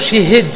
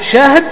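First: Vowel i after sh, i after h. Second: Open a after sh, no vowel after h. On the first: "شي شي والهاء أيضا مكسور" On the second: "بسكون الهاء"

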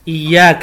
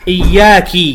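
First: The final consonant carries an a vowel. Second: The final consonant carries an i vowel. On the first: The speaker calls it right. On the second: The speaker calls it wrong.

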